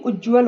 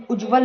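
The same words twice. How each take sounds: First: Said in the usual way. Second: उज्ज्वल in the mistaken form, louder. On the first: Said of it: "होता है". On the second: Shown as a demonstration. Teacher rejecting a misspelling, mistaken form. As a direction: punch out the faulty उज्ज्वल. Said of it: "नहीं".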